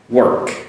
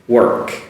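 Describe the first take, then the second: The two takes are said the same way.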